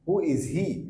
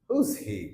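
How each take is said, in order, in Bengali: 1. দুটো শব্দই পূর্ণভাবে, আলাদাভাবে বলা হয়। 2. শব্দ দুটো একসাথে মিশে একটি সংকুচিত শব্দ হয়ে যায়। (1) "না" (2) "আমরা বলবো who's he"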